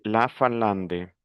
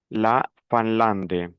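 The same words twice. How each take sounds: First: La Finlande with a nasal in vowel in Fin. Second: Said in the usual way. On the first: Shown as a demonstration. Teacher correcting the nasal vowel in Finlande. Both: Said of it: "la nasalisation ici".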